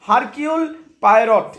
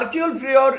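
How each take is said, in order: First: The H and the final T are pronounced. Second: The H and the final T are silent. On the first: The speaker calls it wrong. "এটা সঠিক উচ্চারণ নয়, এটা আক্ষরিক অর্থে উচ্চারণ হচ্ছে" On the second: The speaker calls it right. "এইচটা silent থাকবে এবং টিটা সাইলেন্ট থাকবে"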